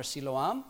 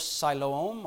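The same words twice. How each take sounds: First: "Siloam" said sih-LOH-am, with a short first i. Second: "Siloam" said sigh-LOH-ohm, with a long first i. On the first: Preacher offering the other reading, "Siloam" with short first i. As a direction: say "Siloam" starting like "sill". Alternative pronunciation of same name. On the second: Preacher naming the pool, "Siloam" with first syllable as sigh. Gives two pronunciations of name. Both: Shown as a demonstration.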